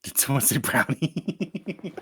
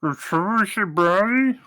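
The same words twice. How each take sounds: First: Talking through a mouthful, slow; words round a bite of brownie; mouth full. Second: Higher, louder, slow, mouth full; loud mouth-full call. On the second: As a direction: shout it through a mouthful. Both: Acted. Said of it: "you're talking with your mouth full".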